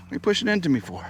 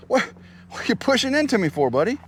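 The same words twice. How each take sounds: First: Said in the usual way. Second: Playful surprised question. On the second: Real, not acted. Horse nudging him.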